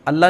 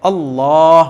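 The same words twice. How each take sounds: First: The L is light and thin. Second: The L is heavy and full-mouthed. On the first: The speaker calls it wrong. "नहीं पढ़ते" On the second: The speaker calls it right. "मोटा करके"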